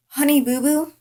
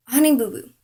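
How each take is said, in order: First: High rising question on "Honey boo boo"; incredulous echo. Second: "Honey boo boo" high at the start, then falling; disbelieving repeat. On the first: Girl repeats the rival's pet name back, incredulous. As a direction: echo "Honey boo boo" in disbelief, pitch climbing to the end. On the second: Girl lets the pet name sink in, disbelieving. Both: Retold or imitated.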